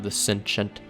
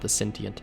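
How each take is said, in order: First: It is said with an American pronunciation. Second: It is said with a British pronunciation. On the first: The speaker calls it wrong. "my Americanized accent" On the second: The speaker calls it right. "it seems more proper to call it the Sentient"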